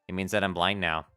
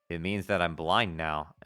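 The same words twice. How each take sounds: First: The words are spoken without a lisp. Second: The words are spoken with a lisp. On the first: The speaker calls it right. "not do the lisp now" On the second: The speaker calls it wrong. "I was doing like this voice before"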